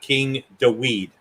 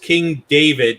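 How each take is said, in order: First: The name is said with a W sound. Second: The name is said with a V sound. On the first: The speaker calls it wrong. "not King Daweed" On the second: The speaker calls it right. "it was King David"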